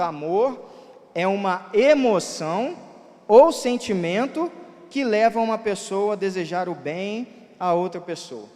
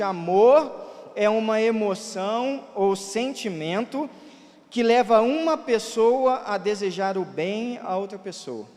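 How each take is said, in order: First: Emoção and sentimento are read with strong emphasis. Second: Emoção and sentimento are read without special emphasis.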